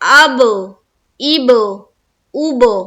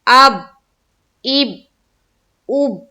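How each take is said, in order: First: The final b bounces with a short echo. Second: The final b stops flat without bouncing. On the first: The speaker calls it right. "हमको करना है" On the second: The speaker calls it wrong. "कलकला अदा नहीं हुआ क्योंकि आवाज टकरा नहीं रही है, उछलती हुई सुनाई नहीं दे रही है"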